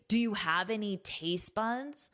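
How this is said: The question is asked in a blunt, rude tone. The speaker is being insulting. "That sounds rude"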